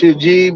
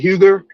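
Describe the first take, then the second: First: The name is not said as spelled. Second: The name is said as spelled. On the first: The speaker calls it right. "It's it's pronounced Hugie" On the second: The speaker calls it wrong. "I used to say Huger"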